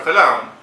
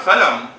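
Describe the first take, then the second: First: "salam" with a long open second vowel; alternative pronunciation. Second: "salam" with a short, reduced second vowel; first pronunciation. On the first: Lecturer recapping both forms, then "salam" as sa-LAAM. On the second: Lecturer recapping both forms, first "salam" as SAH-lum. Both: Shown as a demonstration. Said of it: "can also be pronounced as".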